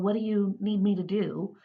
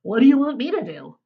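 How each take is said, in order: First: It sounds sincere and interested. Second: It sounds annoyed and confrontational.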